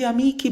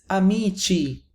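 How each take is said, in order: First: "amici" said with a hard k, a-MEE-kee; hard k sound. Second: "amici" said a-MEE-chee; soft ch in "amici", as in cheese; soft ch sound. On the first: Teacher giving the expected but wrong plural, "amici" with hard k. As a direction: say "amici" as if spelled amiki. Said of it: "but it's not". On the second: Teacher giving the real exception, "amici" with soft ch. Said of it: "should be amici, but it's not". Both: Shown as a demonstration.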